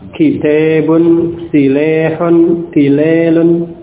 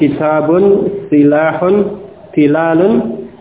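First: The long vowels lean toward an e sound. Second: The long vowels are a plain open a.

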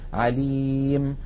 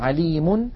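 First: The word ends on a bare final consonant. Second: The word ends with a vowel and n sound. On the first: "يحذفون التنوين ويقفون بالسكون عليم" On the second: "مثلا عليم"

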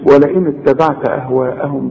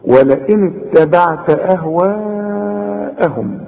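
First: The vowel before the hamza is cut short. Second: The vowel before the hamza is held long. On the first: The speaker calls it wrong. "ما تقولش ولئن اتبعت أهواءهم بقى، لا" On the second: The speaker calls it right. "المد الواجب اللي لازم تمده عند الوقف وعند الوصل أربع حركات"

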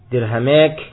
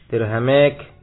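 No difference in how they are said.

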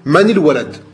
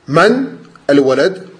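First: The words are joined by a linking "i" vowel. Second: The words are said separately, without a linking vowel. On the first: "si jamais tu fais la liaison... Tu vas mettre une kasra" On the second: "sans liaison"

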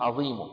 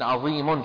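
First: The word ends with a brief, faint u vowel. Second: The word ends with a vowel plus an n sound. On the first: "شو بتصير؟" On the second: "التنوين يحذف"

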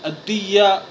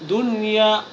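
First: The n sound is merged into the y. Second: The n sound is clearly pronounced before y. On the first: The speaker calls it wrong. "فلا تقرأ ... فهذا خطأ ولحن" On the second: The speaker calls it right. "بل تظهر هذه النون الساكنة، فنقرأها"

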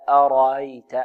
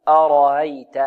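Both takes have the same delivery.

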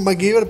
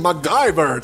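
First: The name is pronounced with Spanish sounds. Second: The name is pronounced with English sounds. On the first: This is how people say it locally. "nosotros decimos MacGyver" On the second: This is how people say it abroad, sounding posh. "allá le dicen MacGyver, todo cheto"

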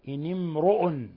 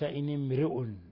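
First: The r sound is heavy and full. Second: The r sound is light and thin. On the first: The speaker calls it right. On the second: The speaker calls it wrong.

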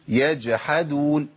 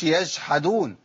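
First: The jim has a clear stop and echo. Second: The jim is softened, with breath running through. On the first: The speaker calls it right. "باين القلقله وباين انقطاع الصوت والنفس" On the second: The speaker calls it wrong. "ما اقولش يجحدون"

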